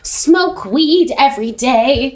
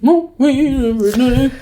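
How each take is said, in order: First: The phrase is said with each word clearly articulated. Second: The phrase is said quickly and slurred together.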